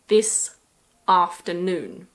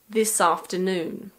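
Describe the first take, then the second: First: The two words are said separately. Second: The two words flow together as one. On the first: The speaker calls it wrong. "we don't usually say" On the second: The speaker calls it right. "We normally say"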